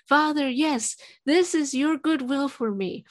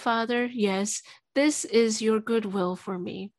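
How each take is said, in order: First: It is spoken a little louder. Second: It is spoken quietly. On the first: The prayer is still somewhat held back. "I tried to be a little louder" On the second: The prayer is held back. "you're too quiet"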